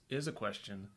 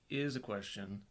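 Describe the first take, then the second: No difference in how they are said.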